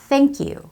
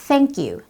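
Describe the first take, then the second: No difference in how they are said.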